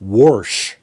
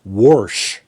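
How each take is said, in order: First: The word is said with an R sound. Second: The word is said with an R sound.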